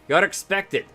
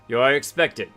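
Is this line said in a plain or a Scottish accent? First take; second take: Scottish; plain. First: It is said in a put-on Scottish accent. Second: It is read in the speaker's ordinary accent.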